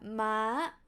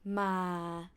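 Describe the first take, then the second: First: The syllable is said on a high pitch. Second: The syllable is said on a low pitch. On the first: It means horse. "high tone means horse" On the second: It has no meaning. "low tone doesn't have any meaning"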